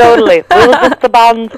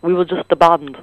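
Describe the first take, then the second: First: Hammed-up Liverpool accent, louder and higher on "We were just a band."; Beatles Liverpool accent. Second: Put-on a light Liverpool accent on "We were just a band."; a hint of Beatles Liverpool, lightly imitated. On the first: Echoing [name] joke for laughs in a full Liverpool accent. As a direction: play [name], broad Liverpool twang. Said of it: "Oh, [name]!". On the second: Quoting [name] to the host in light Liverpool accent. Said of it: "you hear [name]".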